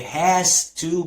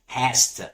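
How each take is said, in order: First: Both words are said fully and separately. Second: The words are run together quickly and reduced.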